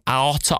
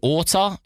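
First: The O vowel sound is left out. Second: The first vowel sound is left out. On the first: "are we dropping the O?" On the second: "is it a silent A?"

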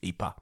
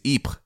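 First: The name has a Flemish pronunciation. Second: The name has a French pronunciation. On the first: "the Flemish name, which is Ypres" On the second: "The French pronunciation is Ypres"

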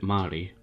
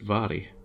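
First: The name begins with an M sound. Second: The name begins with a V sound. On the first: This is how the name's owner said it. "she actually pronounced it Mary, which is kind of how it looks" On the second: This is the Scots pronunciation. "in Scots, it's pronounced Vary"

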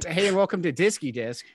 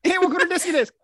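First: It is said at an ordinary speed. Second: It is said very fast, words running together.

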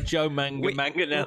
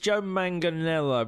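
First: The syllable 'manga' is said twice. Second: The syllable 'manga' is said once. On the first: The speaker calls it wrong. "You don't say manga twice. You don't go" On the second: The speaker calls it right. "I looked it up. It's"

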